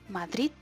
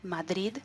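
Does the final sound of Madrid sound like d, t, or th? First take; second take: t; d. First: The final sound is a t. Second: The final sound is a soft d. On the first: "la tercera como T ... Esa no me gusta nada" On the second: "Una como D"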